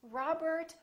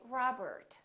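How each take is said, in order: First: It is said in an American accent. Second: It is said in an American accent.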